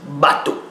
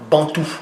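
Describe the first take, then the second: First: There is no n sound before the t. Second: There is an n sound before the t. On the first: The speaker calls it right. "on dit bateau" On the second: The speaker calls it wrong. "on ne dit pas Bantou"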